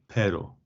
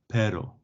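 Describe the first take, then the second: The two takes are said the same way.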